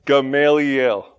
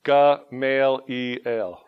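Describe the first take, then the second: First: Gamaliel said slowly, each syllable placed cleanly; corrected Gamaliel. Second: Gamaliel drawn out very slowly, syllable by syllable; slow careful Gamaliel. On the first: Pastor finally nailing the name, slow and careful. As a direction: land Gamaliel carefully at last. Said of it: "I did it". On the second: Pastor retrying the name for the congregation, very slow. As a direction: sound out Gamaliel slowly, trying to lose the southern end. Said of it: "the end is still kind of there". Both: Shown as a demonstration.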